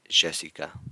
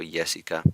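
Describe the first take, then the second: First: The Y is said the Argentine way. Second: The Y is said the Mexican way. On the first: "further down toward Ar Argentina, you might hear" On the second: "closer to Mexico"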